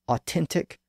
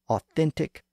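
First: The middle consonant is a plain T sound. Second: The middle consonant is a TH sound.

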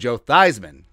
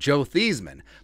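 First: The first syllable sounds like 'thighs'. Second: The first syllable sounds like 'thees'. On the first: The name was changed to rhyme with the award. "to get him the Heisman, they changed the pronunciation of his name" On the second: This was the name's original pronunciation. "I think his name was originally pronounced Thiesmann"

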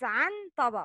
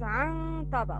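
First: The n sound is pronounced clearly. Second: The n sound is hidden with heavy nasalization. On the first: "Written as" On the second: "Pronounce it as عن طبق. It's heavy غنة"

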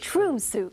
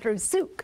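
First: The stress is on the first syllable. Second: The stress is on the last syllable. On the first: The speaker calls it wrong. "I always wanted to say Trusyuk" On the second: The speaker calls it right. "the emphasis goes on the last syllable"

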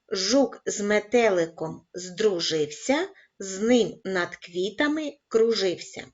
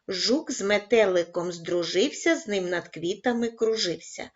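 First: It is read at a very slow pace. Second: It is read at a slow pace. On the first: "розпочинаємо із повільного темпу" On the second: "кожного разу пришвидшуючи темп"

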